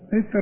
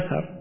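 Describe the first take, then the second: First: It starts with i, second consonant unvoweled. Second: It starts with a, second consonant with a. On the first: "بكسر الهمزة وسكون المثلثة" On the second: "وبفتحهما أثر"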